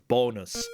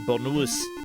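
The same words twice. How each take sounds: First: The stress is on the first syllable. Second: The stress is on the last syllable. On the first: The speaker calls it right. "then they put the accent so it's bonus" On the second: The speaker calls it wrong. "the O should have the emphasis and not be bonus"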